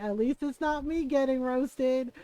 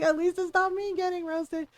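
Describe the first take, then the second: First: Slow words broken by laughter; laughing it out. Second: Pitched up, stressing not; higher repeat. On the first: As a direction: say it through giggles. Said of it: "I was laughing". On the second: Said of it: "I was like". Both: Retold or imitated.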